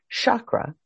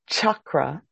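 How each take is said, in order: First: The word begins with a sh sound. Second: The word begins with a ch sound. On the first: The speaker calls it wrong. "not chakra, not a sh" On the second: The speaker calls it right. "I say chakra, ... but a ch"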